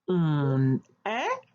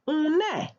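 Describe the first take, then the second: First: The two words are said separately. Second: The two words are linked as one.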